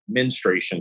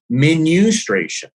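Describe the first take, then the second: First: It is said without an extra vowel after 'men'. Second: It is said with an extra vowel after 'men'. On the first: This is the speaker's own usual way. The speaker calls it right. "I've always said menstruation cycle" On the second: This is how someone else wanted it said. The speaker calls it wrong. "no, menustration"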